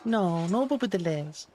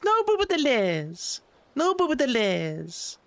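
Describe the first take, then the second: First: Lower, insistent "No, no boop at the liz"; lower and firm. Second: Raised pitch, slow and deliberate on "No boop at the liz"; slowly and higher, each word set apart. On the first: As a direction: drop the voice lower, stressing "boop". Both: Pretend.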